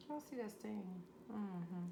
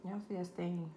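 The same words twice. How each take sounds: First: Soft, hushed repeat of the question; quiet. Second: Said in the usual way. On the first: Acted. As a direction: drop to a near hush. Showing off finished dish, repeated.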